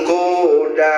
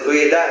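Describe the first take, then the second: First: The first vowel is a rounded u. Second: The first vowel blends i with lip rounding. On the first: "satu doma" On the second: "tilu ismam"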